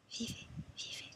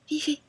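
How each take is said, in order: First: Very soft, whispered echo; hushed voice of the dead. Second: Louder, higher, sudden exhortation; urgent cry. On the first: Woman passing on what the dead say, hushed whisper. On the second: Woman passing on the dead's one message, urgent cry. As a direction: cry it out as a command. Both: Acted.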